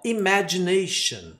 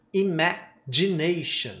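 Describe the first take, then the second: First: Slow imagination, dj sound on g; slow model word. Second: Slow, soft Imagination with dj; model word repeated. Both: Shown as a demonstration. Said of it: "o D J, dj".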